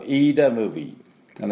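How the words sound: The first word begins with a long 'ee' vowel. The speaker calls it wrong. "アメリカ人が読むとこれ飯田ムービー"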